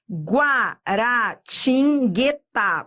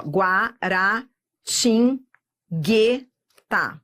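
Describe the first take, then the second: First: Guaratinguetá said slowly, syllable by syllable; slowly sounded out. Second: Guaratinguetá drawn out very slowly, each syllable stretched apart; even slower. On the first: Teacher sounds out Guaratinguetá for students, slowly syllable by syllable. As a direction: spell out Guaratinguetá in slow separate syllables. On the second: Teacher repeats Guaratinguetá for students, very slowly, syllable by syllable. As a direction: stretch every syllable of Guaratinguetá as far as it goes. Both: Shown as a demonstration. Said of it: "Vamos devagar".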